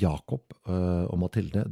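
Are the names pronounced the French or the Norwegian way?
Norwegian. The names are pronounced the Norwegian way. The speaker calls it wrong. "det ikke Jakob og Mathilde"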